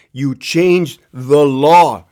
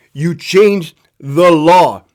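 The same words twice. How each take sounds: First: Slow, heavy first telling; slow emphasis. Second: Slow and louder, pressing the point; louder repeat. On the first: Telling the governor off, slow and deliberate. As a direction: lay it down slowly. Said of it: "repeated for emphasis". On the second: Scolding lawmakers again, slower and louder. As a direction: hammer it home the second time. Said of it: "repeated louder". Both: Shown as a demonstration.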